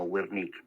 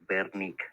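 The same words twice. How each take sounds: First: The name begins with a W sound. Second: The name begins with a B-like sound. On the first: The speaker calls it wrong. "no Wernicke" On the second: The speaker calls it right. "En Alemania la W se pronuncia como una B"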